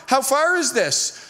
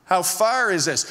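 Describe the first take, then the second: First: Higher, slow, stretched-out question; uneasy question. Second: Insistent repeat. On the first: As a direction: ask it like a worried passenger. Passenger first asks about the distance. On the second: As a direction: press for a straight answer. Passenger insists after a vague answer. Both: Retold or imitated.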